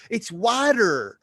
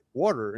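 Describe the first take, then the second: First: "water" as a loud, high, stretched "wah-ter"; strident "water". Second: "water" with a rounded "aw" vowel; usual "water". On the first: Mom correcting the speaker, strident drawn-out "wah-ter". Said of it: "It's so strident". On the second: Speaker answering mom, matter-of-fact rounded "water". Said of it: "And I'm like". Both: Retold or imitated.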